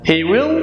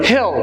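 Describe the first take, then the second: First: Both words are said fully and separately. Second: The words merge into one short syllable.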